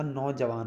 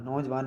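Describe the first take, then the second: First: Said in the usual way. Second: नौजवान said "naujvaan", no vowel after j; run-together "naujvan". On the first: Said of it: "होता है". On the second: Shown as a demonstration. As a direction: join j and v in नौजवान. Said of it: "नहीं होता".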